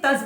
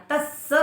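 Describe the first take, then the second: First: "तस" ending on a single closed s; "तस" cut off at one s; half sa left off. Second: "तस्स" with a doubled s released into a vowel; "तस्स" as tas-sa, double s; half sa added. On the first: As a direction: say "तस" short, without the extra स. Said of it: "आधा स नहीं बोला उससे". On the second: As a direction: hold the s in "तस्स", then sound the final a. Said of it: "आधा स जोड़ दिया". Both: Shown as a demonstration.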